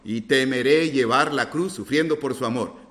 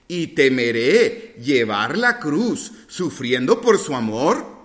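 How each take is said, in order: First: It is said with a flat, affirming intonation. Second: It is said with a questioning intonation. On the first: The singer states that they will fear. The speaker calls it wrong. "pareciera que estamos afirmando" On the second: The singer is asking whether they would fear. The speaker calls it right. "es difícil dar la inflexión de pregunta, ¿no? Pero como él decía"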